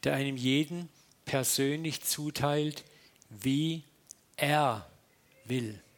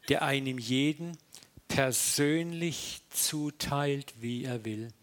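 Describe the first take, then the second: First: It is said slowly. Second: It is said at a normal pace.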